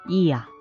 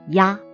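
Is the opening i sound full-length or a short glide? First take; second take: full-length; short glide. First: The opening i sound is held full-length. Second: The opening i sound is a quick glide. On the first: "Without the symbol, it pronounces" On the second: "With it, should pronounce as"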